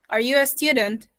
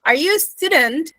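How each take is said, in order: First: Are you a student? with the pitch falling at the end; falling tune. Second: Are you a student? rising high at the end; rising question tune. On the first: Teacher contrasting the falling take of the question. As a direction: let student drop down. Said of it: "Upward one is basically for the yes, no questions". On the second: Teacher showing students the rising tone. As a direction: lift student into a yes-no question. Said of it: "So if I asked you". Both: Shown as a demonstration.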